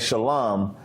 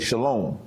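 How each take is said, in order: First: The word has a traditional, non-modern pronunciation. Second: The word has a modern Hebrew pronunciation. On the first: "instead of saying shalom" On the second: "he would say"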